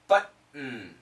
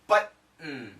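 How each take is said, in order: First: The T is cut off by a glottal stop. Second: The T is cut off by a glottal stop.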